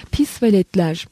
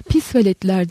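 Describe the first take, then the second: First: Hafif tiz, öfkeyle azarlayan ses; ince öfkeli ses. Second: Sesini zorla kalınlaştırıp bağıran adam; kalınlaştırılmış sesle bağırış. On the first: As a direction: ince sesle kızgınca çıkış. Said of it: "ince, öfkeli bir ses duyuldu". (ince, öfkeli bir sesle) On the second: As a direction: tok görünmeye çalışan kızgın bağırış. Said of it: "diye bağırdı elinden geldiğince sesini kalınlaştırarak". (sesini kalınlaştırarak bağırıyor) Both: Acted.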